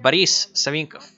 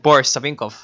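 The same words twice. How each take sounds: First: The unstressed o is reduced to 'ah'. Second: The unstressed o keeps a full 'o' sound. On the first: The speaker calls it right. "You pronounce it" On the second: The speaker calls it wrong. "You do not pronounce it"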